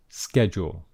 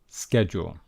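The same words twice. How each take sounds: First: It is said with an American pronunciation. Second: It is said with an American pronunciation.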